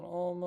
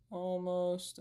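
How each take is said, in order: First: "almost" held out very long, softly; emphasis on ALMOST. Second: Said in the usual way. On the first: Shown as a demonstration. Streamer stalling viewers while setting up, "almost" drawn way out. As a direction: stretch the vowel of "almost" on and on. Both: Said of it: "Emphasis on almost".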